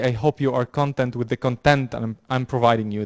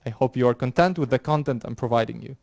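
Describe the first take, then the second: First: First "content" as CON-tent, second "content" as con-TENT; wrong stress. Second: First "content" as con-TENT, second "content" as CON-tent; correct stress. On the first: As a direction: swap them: stress the first "content" on syllable one, the second "content" on syllable two. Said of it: "That doesn't make sense". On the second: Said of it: "you see the difference here?". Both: Shown as a demonstration.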